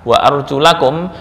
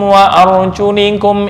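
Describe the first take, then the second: First: The vowel after arjul is an a sound. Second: The vowel after arjul is an i sound. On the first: The feet must be washed. "Jika dibaca fathah" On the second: The feet only need to be wiped. "yang membaca arjulikum kaki cukup diusap"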